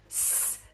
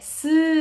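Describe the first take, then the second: First: A hiss of air with no voicing. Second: A hiss followed by a voiced vowel sound. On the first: The speaker calls it right. "공기만 스 뱉고 있는 친구들은 손끝의 떨림이 스 느껴지지 않을 거예요" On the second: The speaker calls it wrong. "스 하고 받침을 붙이고 있는 친구들은 목에서 진동이 덜덜덜덜 느껴질 거예요"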